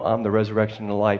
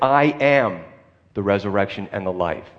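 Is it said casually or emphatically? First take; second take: casually; emphatically. First: It is said casually, as an offhand remark. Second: It is said emphatically, with strong force.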